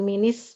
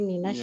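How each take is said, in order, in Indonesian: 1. Min menyambung dengan vokal i dan bunyi s. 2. Min menyambung dengan vokal a dan bunyi sh. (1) "bukan minis" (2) "tapi minash"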